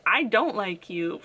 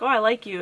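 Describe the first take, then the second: First: Slow, dry "I don't like you" with "don't" leaned on; a mild deadpan turn against the character; retold dislike. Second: Light, pleased "Oh, I like you"; a mild happy reaction to a character; retold delight. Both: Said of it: "I was like".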